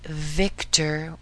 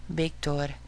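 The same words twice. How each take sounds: First: Said in the usual way. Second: "Victor" with a soft B for the V, Spanish ending. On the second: Shown as a demonstration. Teacher repeats the example for learners, "Victor" with soft B. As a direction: say "Victor" as Spanish "beek-TOR". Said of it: "soft B".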